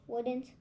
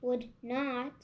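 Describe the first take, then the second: First: Wouldn't said as one contracted word, "wouldn't"; misread word. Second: Would not said as two separate words, "would not"; careful corrected reading. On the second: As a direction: splits it into "would not", not the contraction. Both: Real, not acted. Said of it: "Not wouldn't".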